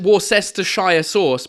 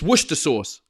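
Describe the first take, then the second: First: The name is said with every written syllable. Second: The name is said with syllables dropped. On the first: The speaker calls it wrong. "I know that you want to pronounce it Worcestershire sauce" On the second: The speaker calls it right. "but it's Worcester sauce"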